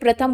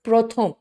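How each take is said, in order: First: The word is said with a Hindi pronunciation. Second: The word is said with a Bengali pronunciation. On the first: "हम तो हिंदी में प्रथम बोलते हैं" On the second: "वहां क्या बोलते हैं?"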